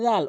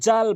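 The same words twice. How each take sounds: First: It starts with the tongue tip at the teeth. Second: It starts with a j sound. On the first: The speaker calls it right. "জিব্বার আগা দাঁতের আগা থেকে উচ্চারণ করবেন" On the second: The speaker calls it wrong. "জাল জিমের উচ্চারণ করে ফেলে"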